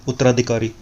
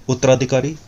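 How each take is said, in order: Both takes have the same delivery.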